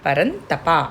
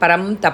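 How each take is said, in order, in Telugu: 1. 'ta' ముందున్న నాసికం n లా వినిపిస్తుంది. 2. 'ta' ముందున్న నాసికం m లా వినిపిస్తుంది. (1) "తాగుణింతం అంటే అన్ రావాలి" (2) "పరం తప కాదండి"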